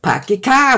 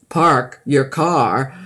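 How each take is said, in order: First: It has a Boston accent, dropping the R. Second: It has a standard American accent with R.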